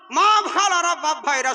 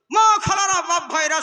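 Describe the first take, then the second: First: Higher, louder call to the crowd, stretched মা; mock jalsa announcement voice; mocking preacher. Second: Higher, louder mock call to the crowd on মা; hammed-up stage call opening a fatwa; mocking preacher. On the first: Mocking the preacher reversing his fatwa to the crowd, high call. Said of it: "ই তখন বলছে". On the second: Mocking a preacher calling out to the jalsa crowd, high and loud. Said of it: "জালসায় উঠে উঠে ফতোয়া দিয়ে দিল".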